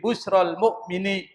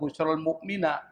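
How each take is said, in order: First: The last word ends in an i vowel. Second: The last word ends in an a vowel. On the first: The speaker calls it right. "Al-mu'min dibaca al-mu'mini" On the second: The speaker calls it wrong. "Enggak boleh dibaca"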